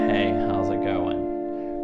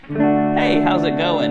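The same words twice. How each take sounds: First: It is said in a sad, downcast tone. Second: It is said in a happy, upbeat tone.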